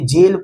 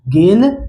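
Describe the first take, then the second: First: The word begins with a soft j sound. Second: The word begins with a hard g sound. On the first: The speaker calls it right. "जी का उच्चारण किससे होता है? जौ से।" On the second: The speaker calls it wrong. "इसे गलती से भी आप लोग गेल नहीं पढ़ दीजिएगा।"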